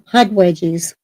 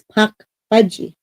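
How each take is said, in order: First: The first syllable is said as 'pud'. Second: The first syllable is said as 'puck'. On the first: The speaker calls it wrong. "I called them Pudwedgies" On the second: The speaker calls it right. "but it's Puck Budgie"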